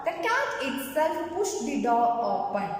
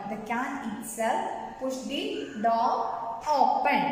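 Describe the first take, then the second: First: Said in the usual way. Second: Slow, word-group by word-group; slow repetition. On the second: Shown as a demonstration. Teacher repeating a grammar example to pupils, slow dictation pace. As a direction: dictate it slowly with small breaks.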